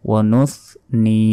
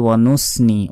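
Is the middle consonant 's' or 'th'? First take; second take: th; s. First: The middle consonant is a th sound. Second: The middle consonant is an s sound. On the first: The speaker calls it right. "জিহ্বা বের করে" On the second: The speaker calls it wrong. "আমরা অনেকে বলি ওয়া নুসনি, ওয়া নুসনি বললে ভুল হবে"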